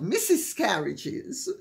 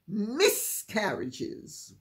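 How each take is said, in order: First: The first part sounds like the word missus. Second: The first part sounds like a short hissed miss. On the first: The speaker calls it wrong. "not Missus Carriages" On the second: The speaker calls it right. "I've had miscarriages"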